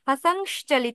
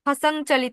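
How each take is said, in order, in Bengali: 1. 'chalito' এর আগে একটি স্পষ্ট 'sh' ধ্বনি আছে। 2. 'chalito' এর আগে কোনো 'sh' ধ্বনি নেই। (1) "যে শ করছি সেটাই হচ্ছে তালব্য শ" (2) "তালব্য শটা উচ্চারণের ক্ষেত্রে আসবে না"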